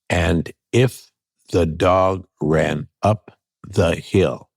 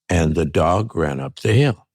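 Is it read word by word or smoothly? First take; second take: word by word; smoothly. First: It is read one word at a time. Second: It is read smoothly without breaks.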